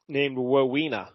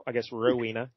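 First: ROWENA as "Wowena", W for the first R. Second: Said in the usual way. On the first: Acted. Podcaster introduces robot by its speech defect, "Wowena" with W. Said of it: "He can't pronounce R's".

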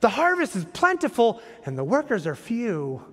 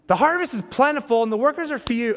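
First: High-pitched reading, PLENTIFUL punched, then a slight break; emphatic demo reading. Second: Loud, high, run-together reading; different-tone demo reading. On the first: Pastor shows the crowd different tones, emphatic. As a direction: lift "plentiful" high and let "few" fall. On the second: Pastor demonstrates another tone to the crowd, loudly emphatic. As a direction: push it out louder and higher in one go. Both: Shown as a demonstration. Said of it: "different words with different tones and expressions".

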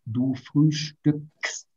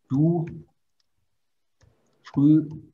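First: Du frühstückst drawn out, every consonant clear; slow it right down for the clusters; very slow demo. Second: Said in the usual way. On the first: Shown as a demonstration. Teacher showing students the consonant cluster, very slow. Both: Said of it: "Muchos consonantes".

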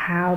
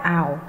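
First: HOW with the h sounded at the start; wrong pronunciation. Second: OW with no h, starting on the vowel; silent h. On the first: Teacher showing students the wrong reading, h pronounced in "how". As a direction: say "how" with an audible h. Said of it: "Chúng ta không đọc là how". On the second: Teacher showing students the silent h, "ow" without h. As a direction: drop the h and say "ow". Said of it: "mà chúng ta đọc là ow". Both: Shown as a demonstration.

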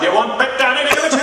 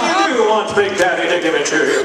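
First: Quick, higher question in mock news cadence; newscaster voice off duty. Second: Newscaster voice off duty. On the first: Newscaster at home asking a partner, lightly mocked news rhythm. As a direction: pose it like a hint of a reporter. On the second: Acted. Newscaster confirming with a partner, lightly mocked news rhythm. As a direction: answer it like a hint of a reporter signing off. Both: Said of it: "they drive home from the station like that".

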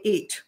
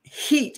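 First: "eat" for heat, opening straight on the vowel; dropped H. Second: Said in the usual way. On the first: Retold or imitated. Ex-husband meaning heat, saying "eat" without H. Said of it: "he'd say". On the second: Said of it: "instead of saying".

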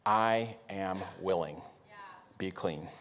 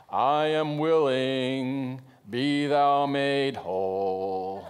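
First: Tender reading. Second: Very slow, drawn-out churchy King James voice; mock the solemn pious recitation; stiff religious intoning. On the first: Shown as a demonstration. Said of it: "hear what Jesus responded". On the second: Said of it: "This isn't just some religious".

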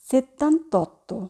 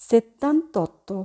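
Both takes have the same delivery.

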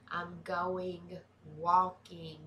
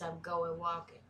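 First: Slow, careful "going walking" with full -ing endings; sounded final G. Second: "going walking" as Southern "goin' walkin'"; silent G. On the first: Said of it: "It's not". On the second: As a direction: drop both final Gs in "going walking". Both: Shown as a demonstration.

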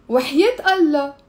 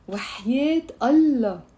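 First: Louder teasing وحياة Allah, Allah stressed; sarcastic tone. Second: Said in the usual way. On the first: Shown as a demonstration. Teacher quizzes students with a sarcastic tone. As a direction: say it mockingly, meaning of course not. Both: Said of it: "Just by the tone of my voice".

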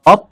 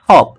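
First: Said in the usual way. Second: টপ with a burst of air, "thop"; aspirated T. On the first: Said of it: "টি এর উচ্চারণটা ঠ". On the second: Shown as a demonstration. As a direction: release টপ with a puffed t. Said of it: "ঠ এর মতো হবে". (টপ-কে "ঠপ" উচ্চারণ)

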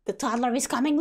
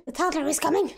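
First: Said in the usual way. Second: Higher, alarmed second warning; alarmed repeat. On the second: Real, not acted. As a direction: raise the alarm the second time round.

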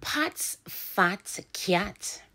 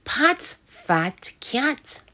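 First: Slow breathy read-along; slow whispered phonics read. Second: Slow, higher lead-in to read along; slow teacher read-along; slow read-aloud. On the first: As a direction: whisper it slowly word by word. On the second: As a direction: read slowly for kids to follow. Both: Shown as a demonstration. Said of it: "Read that with me".

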